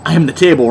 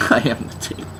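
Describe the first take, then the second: First: Said in the usual way. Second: Breathy laughing whisper. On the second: Shown as a demonstration.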